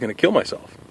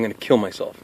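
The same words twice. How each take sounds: First: It sounds light and casual. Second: The voice drops low and sounds flat. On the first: It is said as a joke. "that sounds kind of more lighthearted" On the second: It is meant as a real statement. "because he dropped"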